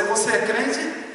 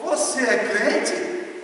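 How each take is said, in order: First: 'crente' stressed, slow rising question; stress on crente. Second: 'você' stressed, higher and very slow, rising question; stress on você. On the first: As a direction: lean on 'crente' and let the question rise slowly. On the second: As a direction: hit 'você' high and drag the question out slowly. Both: Shown as a demonstration. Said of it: "Olha a diferença da entonação".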